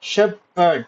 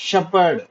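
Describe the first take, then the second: First: Shepherd split into two beats; syllable by syllable. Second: Said in the usual way. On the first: Shown as a demonstration. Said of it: "two syllable". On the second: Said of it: "How many syllables".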